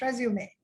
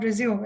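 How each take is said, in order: First: RESUME ending in an "ay" sound; French E ending. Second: RESUME without the French E at the end; English-verb pronunciation. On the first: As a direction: say resume as three syllables, rez-yoo-may. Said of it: "pronounced like a French E". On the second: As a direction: say resume like the verb, ending on "zoom". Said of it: "It's not resume". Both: Shown as a demonstration.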